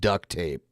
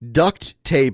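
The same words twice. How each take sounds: First: No t sound ends the first word. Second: A t sound ends the first word.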